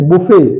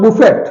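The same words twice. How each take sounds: First: Buffet as "boo-fe"; silent final T. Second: Buffet as "boo-fet", T sounded; wrong pronunciation. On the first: Teacher giving the correct form, silent final T. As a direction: leave the T off buffet. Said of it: "it's buffet". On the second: Teacher showing the mistake, wrong pronunciation. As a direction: close buffet on a clear T. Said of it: "it's not buffet". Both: Shown as a demonstration.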